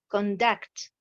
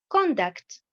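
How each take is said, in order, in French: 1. L'accent tombe sur la deuxième syllabe. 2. L'accent tombe sur la première syllabe. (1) "j'ai l'accentuation sur la deuxième syllabe" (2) "nous avons l'accentuation sur la première syllabe"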